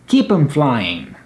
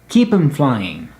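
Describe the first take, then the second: First: The word 'them' is reduced to 'em'. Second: The word 'them' is reduced to 'em'.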